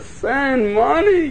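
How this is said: It is said as a soft, pleading request. The writer is desperate and needs help. The speaker calls it right. "Like he's pleading"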